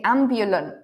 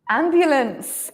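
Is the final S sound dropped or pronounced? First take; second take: dropped; pronounced. First: The final S sound is left off. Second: The final S sound is clearly said. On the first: The speaker calls it wrong. "you don't pronounce the ending correctly. For example, you say ambulant" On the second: The speaker calls it right. "Pronounce S"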